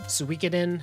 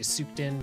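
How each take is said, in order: First: The name is said in its full form. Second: The name is said in a shortened form. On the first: This is how other people say it. "I think is what other how people pronounce it too" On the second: This is the speaker's own habitual way of saying it. "I always say Sukden"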